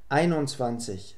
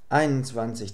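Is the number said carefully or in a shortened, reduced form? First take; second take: careful; reduced. First: The 'und' is said as 'un' without d. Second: The 'und' is shortened to just an n. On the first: "wird praktisch immer ohne das d ausgesprochen" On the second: "Das und wird dabei zu einem n verkürzt. Sehr flüssig"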